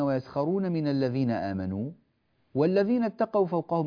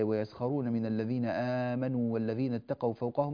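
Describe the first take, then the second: First: There is a pause after 'آمنوا'. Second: The words run on without a pause. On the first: "لاحظوا أن هنا يوجد وقف" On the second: "أو من وصل فقال"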